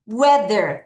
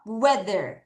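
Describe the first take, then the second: First: Weather drawn out slowly and clearly; slow repeat. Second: Said in the usual way. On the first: Shown as a demonstration. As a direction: say weather again, slower and clearer. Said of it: "다시 weather". (다시 weather를 천천히 또렷하게) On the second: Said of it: "같이 읽을게요".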